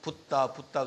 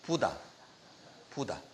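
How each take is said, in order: First: The middle consonant is tense and held. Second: The middle consonant is plain and light. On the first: The speaker calls it wrong. "영어식으로 발음을 해가지고 붓다 붓다 그러는데" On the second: The speaker calls it right. "본토식으로 발음하면 붓다가 아니고 부다 부다"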